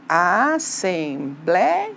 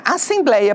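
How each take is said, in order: First: "Assembleia" drawn out very slowly, syllable by syllable. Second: Said in the usual way. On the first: Shown as a demonstration. Teacher showing the separation of the little word, slow syllabified "Assembleia". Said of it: "se você fizer aqui a separação". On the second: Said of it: "a separação da palavrinha".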